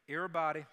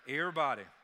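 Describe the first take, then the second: First: It is said in a plain accent. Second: It is said in a country accent.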